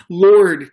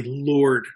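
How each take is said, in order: First: "Lord" called out much louder, pleading; desperate begging cry. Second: Said in the usual way. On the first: Retold or imitated. Father begging Jesus to come to his dying son, loud pleading cry. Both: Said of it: "it's like he's repeatedly begging".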